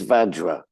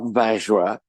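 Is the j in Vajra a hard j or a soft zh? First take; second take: hard j; soft zh. First: The j is a hard j sound. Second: The j is a soft zh sound. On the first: The speaker calls it right. "the J in Sanskrit is pronounced J" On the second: The speaker calls it wrong. "It's not French"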